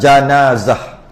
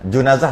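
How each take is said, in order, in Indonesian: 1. Vokal pertama itu bunyi a. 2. Vokal pertama itu bunyi u. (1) "dengan jimnya baris atas" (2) "Junazah tak boleh"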